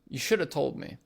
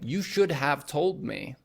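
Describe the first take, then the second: First: Should have is blended into shoulda. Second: Should have is said fully, both words clear. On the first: "should have becomes shoulda. / we'll say" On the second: "Instead of saying"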